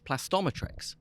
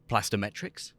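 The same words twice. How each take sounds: First: The middle syllable sounds like 'Tom'. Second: The middle syllable does not sound like 'Tom'. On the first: The speaker calls it right. "we have to say no, it's plastometrics" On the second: The speaker calls it wrong. "We have employees who might still say plastometrics"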